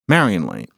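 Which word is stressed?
Marion. The stress falls on the word Marion. The speaker calls it wrong. "not Marion Lane"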